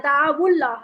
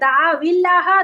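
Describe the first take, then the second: First: The words are joined with a u vowel. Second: The words are joined with an i vowel.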